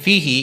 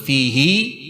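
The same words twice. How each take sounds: First: The final vowel is cut short. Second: The final vowel is drawn out long. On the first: "hi dalam kalimat fihi itu bacanya pendek" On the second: "Tapi khusus di ayat ini dibaca pan panjang"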